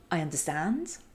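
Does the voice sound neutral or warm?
neutral. It is said plainly, without stretched vowels.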